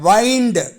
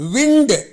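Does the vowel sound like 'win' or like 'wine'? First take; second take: wine; win. First: The vowel is long, as in 'wine'. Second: The vowel is short, as in 'win'. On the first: It is an action of turning or coiling. "வெர்பா அந்த டபிள்யூஐஎன்டி வெர்பாக வினை சொல்லாக செயல்படும் போது உச்சரிப்பு" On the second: It names the moving air. "இதே word பெயர் சொல்லா வந்தால் அதனுடைய உச்சரிப்பு என்ன தெரியுமா?"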